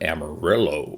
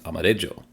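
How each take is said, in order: First: It is pronounced the American English way. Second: It is pronounced the Spanish way. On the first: The speaker calls it wrong. "we American cowboys decided to take that word and call it Amarillo" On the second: The speaker calls it right. "but really it's amarillo"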